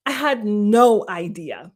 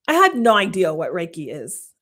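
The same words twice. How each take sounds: First: "I had no idea" slowed, HAD stressed; slow emphatic repeat. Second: Said in the usual way. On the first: Shown as a demonstration. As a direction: lean into "had", drawn out.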